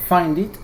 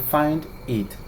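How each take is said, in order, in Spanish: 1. Las dos palabras se unen sin pausa. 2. Las dos palabras se dicen con una pausa. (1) "podemos unir las dos últimas palabras y pronunciarlo" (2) "en lugar de"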